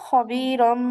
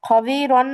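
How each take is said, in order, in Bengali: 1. শব্দটি m ধ্বনি দিয়ে শেষ হয়। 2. শব্দটি n ধ্বনি দিয়ে শেষ হয়। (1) "বলবো হবি রম" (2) "হবি রন না বলে"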